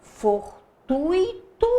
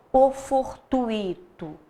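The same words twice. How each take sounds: First: Fortuito drawn out slowly as for-tu-i-to, rising; syllables split. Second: Fortuito said with the ui as one gliding sound, falling; run together. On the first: Teacher testing the pronunciation, syllables split slowly. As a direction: Fortuito said slowly, each vowel apart, rising at the end. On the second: Teacher offering the other pronunciation, ui glided. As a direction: fortuito said smoothly as for-tui-to, falling. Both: Shown as a demonstration. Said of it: "como que eu pronuncio essa palavra".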